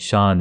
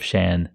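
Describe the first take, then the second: First: Shan is said with an Urdu pronunciation. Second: Shan is said with an English pronunciation. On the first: The speaker calls it wrong. "So I keep saying Shan" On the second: The speaker calls it right. "instead of Shan"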